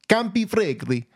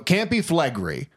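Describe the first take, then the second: First: It is said in an Italian accent. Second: It is said in a plain English accent. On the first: "Fine, I'll do it" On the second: "So you don't say it with the accent"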